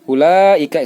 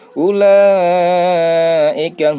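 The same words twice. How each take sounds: First: The first vowel is short. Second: The first vowel is long. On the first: The speaker calls it wrong. "Kalau ini ulaika salah" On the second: The speaker calls it right. "harus enam minimal"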